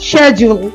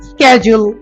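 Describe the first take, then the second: First: It begins with an 'sh' sound. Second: It begins with an 'sk' sound. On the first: "ব্রিটিশরা বলে শেজুল" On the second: "America বলে স্ক্যাজুল"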